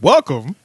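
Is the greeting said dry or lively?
lively. It is said in a lively, animated way.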